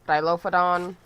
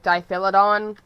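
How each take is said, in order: First: The word begins with 'Dilo' then 'phodon'. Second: The word begins with 'Diphi' then 'lodon'. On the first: The speaker calls it right. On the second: The speaker calls it wrong. "I say Diphilodon because it's a default for my brain. That's not how it's actually pronounced"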